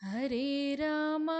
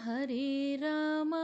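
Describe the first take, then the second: No difference in how they are said.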